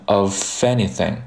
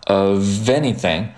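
First: "of anything" mistakenly said with an f; wrong voiceless f. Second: "of anything" linked with a buzzing v; voiced v linking. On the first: Teacher showing what not to say, wrong voiceless f. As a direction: turn the v of "of anything" into "uh-fenything". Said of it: "而不要读成of anything". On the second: Teacher showing the correct of anything, voiced v linking. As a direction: say "of anything" as "uh-veny-thing", v fully voiced. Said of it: "所以说你在读的时候要读成". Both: Shown as a demonstration.

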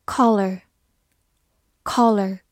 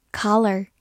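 First: Said in the usual way. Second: "collar" in American English, open "KAH-ler" with an r at the end; American pronunciation. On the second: Shown as a demonstration. Teacher contrasts with the American pronunciation of "collar". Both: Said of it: "或者美式发音".

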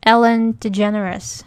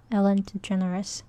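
First: Ellen DeGeneres spoken slowly and clearly, each syllable drawn out; name said clearly. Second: Ellen DeGeneres repeated much softer, as an aside; quiet repeat. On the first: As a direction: slowly spell out Ellen DeGeneres by sound for the class. (慢慢清楚地念出Ellen DeGeneres) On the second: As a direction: murmur Ellen DeGeneres again to yourself. (小声重复Ellen DeGeneres) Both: Shown as a demonstration. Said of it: "还有你们知道那个艾伦吗".

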